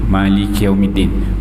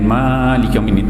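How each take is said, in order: First: The first vowel of Malik is short. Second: The first vowel of Malik is long. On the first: This is how the other narrator's reading goes. "dia baca dengan pendek" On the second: This is the usual familiar reading. "bukan baca dengan"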